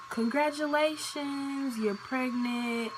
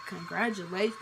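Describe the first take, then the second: First: Drawn-out, higher sing-song congratulations, slowed; cheery nurse announcement. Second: Flat, dazed repeat of "Congratulations." with a small questioning rise; stunned echo. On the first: Nurse cheerfully telling a young patient she's pregnant, sing-song. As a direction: announce it brightly like happy news. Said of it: "They like". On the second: Shocked girl repeating the nurse's news back, dazed and flat. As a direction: echo the word back in disbelief. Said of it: "And I'm just like". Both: Retold or imitated.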